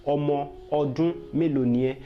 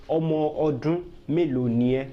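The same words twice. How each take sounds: The two takes are said the same way.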